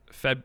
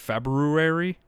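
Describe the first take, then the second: First: The first r is dropped. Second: The first r is pronounced. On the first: "It's incorrect" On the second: "That's how you spell it"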